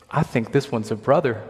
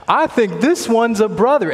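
First: Said in the usual way. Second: Much higher and louder second go; excited repeat. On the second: Retold or imitated. Retelling the screening lady's words, now higher and louder. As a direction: say it again, lit up and loud.

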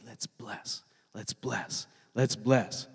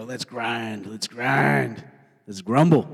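First: Soft, low, feeble chant; half-hearted rallying. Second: Grumbling rally. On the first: Trying to get a crowd to bless, soft half-hearted chant. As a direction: start very soft, a rally nobody joins. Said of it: "It's hard to get a crowd to say". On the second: Crowd easily roused to grumble, gruff building chant. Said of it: "It's easier to go". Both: Acted.

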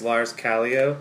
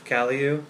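First: "Callio" as KAL-ee-oh, tentative rising end; first try at name. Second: "Callio" as KAL-ee-oo, correcting oneself; second try at name. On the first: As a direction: say "Callio" ending in an oh sound. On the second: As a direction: say "Callio" ending in an oo sound. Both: Shown as a demonstration. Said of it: "sorry, Lars".

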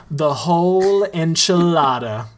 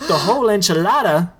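First: Said in the usual way. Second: Fast, higher, stunned question; quick, higher gasp of disbelief; shocked echo. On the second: Acted. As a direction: repeat it in disbelief. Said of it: "Tito repeats".

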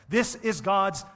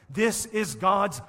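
No difference in how they are said.

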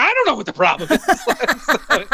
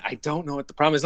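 First: High, loud, slowed helpless echo of the director; squeaky mock-bewildered repeat. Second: Said in the usual way. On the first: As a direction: throw his words back, high and baffled. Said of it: "And I was like". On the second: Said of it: "he was like".

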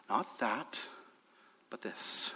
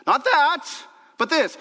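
First: Low, very soft delivery; hushed contrast. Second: High, loud preaching punch; emphatic repeat. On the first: Preacher quietly sums up Paul's message, hushed. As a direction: set it out quietly, almost under the breath. Quiet first take before loud repeat. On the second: Preacher drives Paul's contrast home to the church, loud and emphatic. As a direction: hammer both halves of the contrast. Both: Real, not acted.

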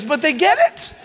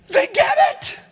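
First: Said in the usual way. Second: High, loud shout of joy; excited shout. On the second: Real, not acted. Pastor shouting to the congregation, thrilled the students got it, high excited shout.

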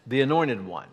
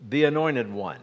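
The two takes are said the same way.

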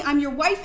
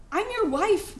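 First: I'm your wife, with wife punched loud and rising; stress on wife. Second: I'm your wife, with your lifted high and rising; stress on your. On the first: Wife insists to her husband, stress on wife. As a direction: hit wife hard. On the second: Wife presses her silent husband, stress on your. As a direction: lean on your, not wife. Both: Acted. Pleading wife repeats herself.

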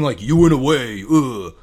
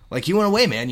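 First: Mock disdainful accusation. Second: High, loud, rising enthusiasm; upbeat welcome-back. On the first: Host showing what he didn't mean, mock disdain. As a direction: say it loudly as if put out. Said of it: "I'm not saying". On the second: Host clarifying his friendly meaning, upbeat delivery. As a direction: lift it up as happy news for a pal. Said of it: "You had an adventure and you came back". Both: Shown as a demonstration.

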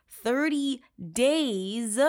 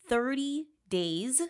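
First: "thirty days" drawn out very slowly in disbelief; slow, incredulous "thirty days"; incredulous emphasis. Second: Said in the usual way. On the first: Real, not acted. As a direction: stretch out DAYS, appalled. Repeats sentence in disbelief.

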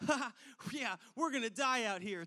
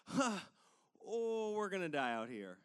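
First: Kidding around, not believing it; joking. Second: Not funny anymore. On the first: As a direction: joke it off with a quick ha. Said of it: "it just turns from". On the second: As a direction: let the dread land, voice dropping. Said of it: "it's, like, not funny anymore". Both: Retold or imitated.

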